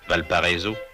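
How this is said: It is said with a French pronunciation. The speaker calls it wrong.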